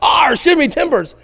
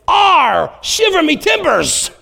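First: A lighter retelling of the pirate chant. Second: High, slow growling pirate chant. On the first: Pastor repeats his son's pirate line to the congregation, lightly voiced. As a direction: toss off the pirate line again, less fully. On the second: Son springs a pirate line on dad at pillow fight, in a pirate voice. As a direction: ham it up like a little cartoon pirate. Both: Retold or imitated. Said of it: "like this pirate chant of some kind".

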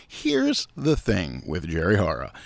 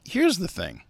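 First: Lower, measured title read; mock show announcer. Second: Said in the usual way. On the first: Host jokingly plugging a new weekly show, mock announcer.

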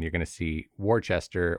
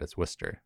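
First: Worcester read as WOR-chester; Worcester sounded out as spelled; spelled-out pronunciation. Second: Worcester said as WISS-ter; Worcester in two soft syllables; correct local pronunciation. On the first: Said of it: "that's how it's spelled". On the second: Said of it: "don't say it like that". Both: Shown as a demonstration.

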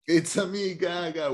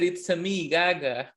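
First: Higher mock Mario "It's a me, [name]"; Mario impression. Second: Mock Italian "It's a me" like Mario; Mario-style catchphrase; Mario impression. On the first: Friend echoes the Mario joke in mock Mario voice. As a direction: echo the Mario catchphrase. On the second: Joking that the actress sounds like Mario, Mario voice. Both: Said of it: "And she said".

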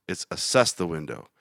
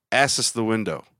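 First: "assess" stressed on the second syllable, as-SESS; corrected stress. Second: "Assess" stressed on the first syllable, ASS-ess; wrong stress. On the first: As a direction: correct her by hitting the end of "assess". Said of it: "You put the wrong emphasis on the wrong syllable". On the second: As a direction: lean on the front of "Assess" like a mistake. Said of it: "Wrong emphasis on the wrong syllable". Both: Retold or imitated.

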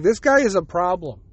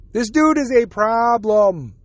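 First: Said in the usual way. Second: "dude" drawn out, slow and pointed; slow stress on DUDE. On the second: Retold or imitated. Imagined censor flags the podcast host, slow mock menace. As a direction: lean on "dude" slowly, mock-ominous. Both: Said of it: "gonna be like".

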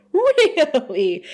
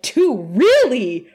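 First: High, stretched-out "Really?"; milk the word, high and exaggerated; drawn-out mock disbelief. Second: Mock surprise. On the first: Repeats his reply, exaggerated. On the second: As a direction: react with exaggerated, punchy disbelief. Acting out his startled reply.

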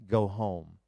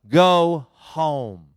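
First: Soft, lower, tender go home; gentle command. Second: God's voice repeating it louder; a firm, louder order to go home; louder command. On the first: Pastor recalls God's caring words, soft and tender. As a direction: say it as a loving, quiet instruction. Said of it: "that he would tell me". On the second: God repeats his order more firmly, louder command. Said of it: "he said it again louder". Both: Retold or imitated.

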